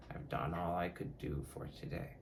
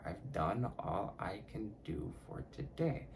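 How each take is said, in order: First: Said in the usual way. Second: Mantra said slowly, word by word; slow, deliberate mantra, carefully articulated. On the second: Shown as a demonstration. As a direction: take the tongue twister slowly and softly. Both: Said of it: "I have to say that shit slowly".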